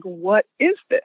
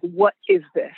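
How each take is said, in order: First: Said in the usual way. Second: Lightly voiced stern mother, lower pitch; a hint of lowered, stern mama voice; stern Black mama. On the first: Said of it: "her heart starts racing and she's like". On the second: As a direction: demand an answer like a mother. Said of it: "in the stern Black mama voice".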